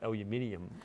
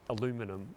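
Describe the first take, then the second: First: It is said with five syllables, ending -nium. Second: It is said with four syllables, ending -num. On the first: This is how it is said in Australia. "we call it aluminium in Australia" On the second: This is how others say it. "we add an I to the end of aluminum"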